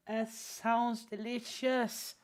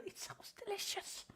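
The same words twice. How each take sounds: First: Slow, drawn-out, relishing each word; savoring it slowly. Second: Breathy high whisper, teasing; flirty whisper. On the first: To a chatter, slowly drawn-out teasing. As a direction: stretch it out like tasting something. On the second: To a chatter, a flirty high whisper. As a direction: purr it like a secret compliment. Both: Real, not acted.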